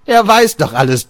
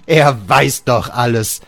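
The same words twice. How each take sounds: First: "Er" yelled very high and loud, the rest following; shouted stress on ER. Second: "er" leaned on, line dragged out slow and heavy; slow stress on ER. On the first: Father shrieks "Er" at Georg, furious stress. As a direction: scream the word "Er" at him. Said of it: "repeated line, first take shouted". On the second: Father repeats to Georg, slow heavy stress on "er". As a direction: press "er" slowly, driving it home. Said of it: "repeated line, second take slower". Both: Acted.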